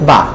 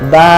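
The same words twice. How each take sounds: First: The vowel is said short. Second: The vowel is drawn out long. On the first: "যেমন আমরা আগে পড়েছি বা জবর বা" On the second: "একটু টেনে বলবো"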